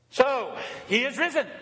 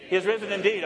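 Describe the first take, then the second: First: "he is risen" called out higher, "risen" held and falling; Easter acclamation. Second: Said in the usual way. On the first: Acted. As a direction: call out "he is risen" to the church.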